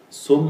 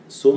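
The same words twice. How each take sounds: First: The vowel after s is u. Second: The same.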